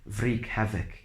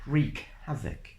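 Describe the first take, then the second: First: The phrase starts with a W sound. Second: The phrase starts with an R sound only. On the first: The speaker calls it wrong. "Not like wreak havoc" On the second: The speaker calls it right. "Only the R sound should be pronounced"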